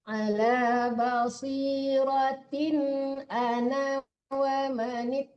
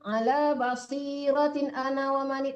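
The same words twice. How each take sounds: First: The phrase is read at an even, measured pace. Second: The phrase is read in a rushed, hurried way. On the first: The speaker calls it right. "Nah, gitu" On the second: The speaker calls it wrong. "jangan terlalu cepat juga. Jangan"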